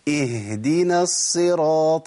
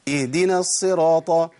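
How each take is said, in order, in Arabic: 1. يُسمع صوت الهاء واضحًا وقويًا. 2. يُسمع همزة بدلًا من الهاء. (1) "لازم امكن لمخرج الهاء" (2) "كأني بأبدل الهاء بهمزة"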